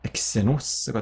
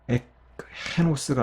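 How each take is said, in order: First: The first word ends in ks sound. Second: The first word ends in k before h. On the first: The speaker calls it right. "엑세노스가 되는 거예요" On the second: The speaker calls it wrong. "엑헤노스가 아니라요"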